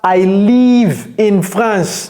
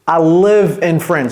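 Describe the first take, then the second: First: The vowel in live sounds like a French i. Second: The vowel in live is a short English i. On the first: The speaker calls it wrong. "Ce n'est pas I live in France" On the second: The speaker calls it right. "non, I live"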